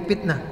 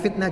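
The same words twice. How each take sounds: First: The word begins with a P sound. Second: The word begins with an F sound. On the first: The speaker calls it wrong. "dibacanya pa" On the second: The speaker calls it right. "ada fa"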